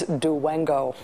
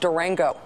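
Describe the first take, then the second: First: The middle consonant is a w sound. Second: The middle consonant is a clear r sound.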